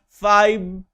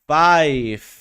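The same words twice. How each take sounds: First: The final consonant sounds like v. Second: The final consonant sounds like f. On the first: The speaker calls it wrong. "No se dice five" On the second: The speaker calls it right. "que se pronuncia five"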